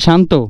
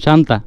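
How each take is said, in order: First: The name ends without a final 'a' vowel. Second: The name ends with a long final 'a' vowel. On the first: The speaker calls it right. "এটা শান্ত" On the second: The speaker calls it wrong. "আমি তো আগে এটা শান্তা বলতাম"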